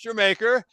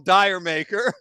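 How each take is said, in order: First: It is said like the word Jamaica. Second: It is said like the words dire maker. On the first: The speaker calls it right. "it's actually pronounced Jamaica" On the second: The speaker calls it wrong. "some people might call Dire Maker"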